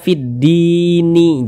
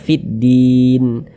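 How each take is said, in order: First: The word ends with an extra short i vowel. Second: The word ends on a bare n sound. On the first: The speaker calls it wrong. "Jangan dibaca fiddini" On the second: The speaker calls it right. "tapi dibaca fiddin"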